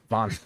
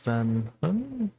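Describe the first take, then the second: First: The vowel sounds like the 'o' in 'von'. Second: The vowel sounds like the 'a' in 'van'. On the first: The speaker calls it right. "don't do that. Von" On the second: The speaker calls it wrong. "I said it wrong the first time because I said Van"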